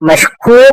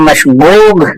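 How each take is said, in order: First: The middle consonant is a k sound. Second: The middle consonant is a gh sound.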